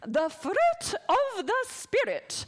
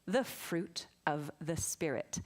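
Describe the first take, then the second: First: It is said playfully, with lively energy. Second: It is said plainly, without extra energy. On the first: "I prefer to say it like this" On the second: "I did not say that in nearly as fun a way as I could have"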